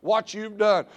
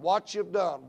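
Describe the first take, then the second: First: "what you've done" pushed higher and louder, falling on "done"; climactic repeat. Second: The first hammer of a repeated phrase; repeated emphasis. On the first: Preacher to the congregation, "what you've done" hammered loud and high. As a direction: land the last repeat hard. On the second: Preacher to the congregation, pressing "what you've done" moderately. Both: Shown as a demonstration. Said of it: "emphasizing what you've done".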